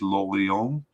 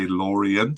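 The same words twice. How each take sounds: First: The name is said with a French pronunciation. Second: The name is said with an English pronunciation. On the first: The speaker calls it wrong. "I don't know why I'm saying everything in a French uh, pronunciation" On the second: The speaker calls it right. "so that it doesn't sound like I'm um, pretending to be French"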